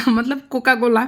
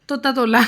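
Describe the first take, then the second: First: "कोका कोला" said properly with clear k sounds, laughing; laughing correction "कोका कोला"; correct pronunciation. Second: Put-on "तोता तोला" said with t for k, as the toddler says कोका कोला; "तोता तोला" in a lightly voiced toddler lisp; child's mispronunciation. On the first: Shown as a demonstration. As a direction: give the real word "कोका कोला" after the baby version. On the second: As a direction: imitate the son's baby-talk "तोता तोला".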